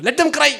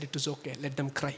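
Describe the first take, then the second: First: Higher, sharply raised quote; emphatic dismissal. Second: Low, very soft, slow quote; quiet dismissal. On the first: Daughter insists her parents can cry, high and emphatic. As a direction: throw it out with sudden force. Quoting daughter, repeated with force. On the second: Daughter dismisses her crying parents, very quiet and low. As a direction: say it slowly, well under your voice. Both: Retold or imitated.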